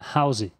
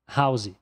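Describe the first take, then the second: Both takes have the same delivery.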